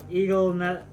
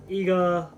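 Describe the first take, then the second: First: "Eagle" said as the bird, a slip for "eager"; misreading eager. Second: "eager" said right, the long "ee" with a hard g; corrected reading. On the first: Streamer misreads Diedrich's line, saying "Eagle" by mistake. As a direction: read "Eagle" wrongly, then break off "ne-". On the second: Streamer corrects the misread word, saying "eager" properly. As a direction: fix the slip and land "eager" properly. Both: Real, not acted.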